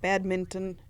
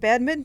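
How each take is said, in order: First: Every sound of the word is pronounced in full. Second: A sound is dropped from the middle of the word. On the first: This matches how the word is written. "it's badminton in the spelling" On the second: This is how people commonly say it. "I don't know why they why they pronounce it badminton"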